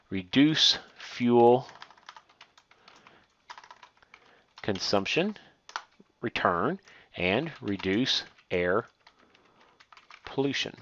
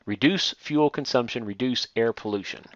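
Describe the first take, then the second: First: Slow and soft, spacing the words out; slow dictation while typing. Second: Said in the usual way. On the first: Shown as a demonstration. Teacher to students, typing the bullet items, slow quiet dictation. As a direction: spell it out slowly as if typing each word. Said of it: "so we typed in those two bulleted items". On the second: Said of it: "add these two, uh, bulleted items".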